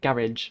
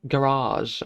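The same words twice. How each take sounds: First: It is said in a broad northern accent. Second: It is said in a more standard accent. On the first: The speaker calls it wrong. "I sound very, very northern" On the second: The speaker calls it right. "people with better accents say like"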